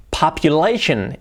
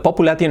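First: "Population" as pop-yu-LAY-shun, slowly; slow "Population", stress on LAY; correct pronunciation. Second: "population" with Spanish vowels, po-pu-la-tion; "population" read as if Spanish; wrong Spanish pronunciation. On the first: Shown as a demonstration. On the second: Retold or imitated. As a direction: imitate a learner's "population", T sounded. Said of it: "Cuidado, population, no".

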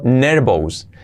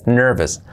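First: "nervous" as NER-bous; wrong Spanish-style reading. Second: "nervous" as NER-ves; correct pronunciation. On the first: Teacher reads out the spelling: "nervous" as Spanish NER-bous. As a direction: say "nervous" with a b and full "ous". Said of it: "ya no digáis nervous". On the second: Teacher models for learners: "nervous" as a short NER-ves. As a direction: say "nervous" with v and weak "-es". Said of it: "Así sería". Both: Shown as a demonstration.

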